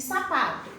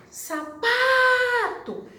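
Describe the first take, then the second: First: Said in the usual way. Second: SAPATO called out high, PA hugely stretched; calling the word. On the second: Shown as a demonstration. Teacher calling the word to find its stress, PA held long in Sapato. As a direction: call out Sapato as sa-PAAA-to, very slowly. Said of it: "chama a palavra. A sílaba mais comprida".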